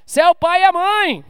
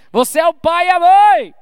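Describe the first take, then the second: First: Repeated with the weight on a in a mãe; stress on a. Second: Raised loud stress on mãe; emphatic shout. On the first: Preacher repeating to parents, hitting a. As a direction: push the word a. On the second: Preacher insisting to parents, loud on mãe. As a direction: proclaim it, landing on mãe. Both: Real, not acted. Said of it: "repeated for emphasis".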